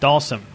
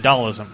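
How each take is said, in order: First: The name ends with a 'sim' sound. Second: The name ends with an 'ism' sound. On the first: The speaker calls it right. "when it's SIM" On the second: The speaker calls it wrong. "I make it an ISM at the end"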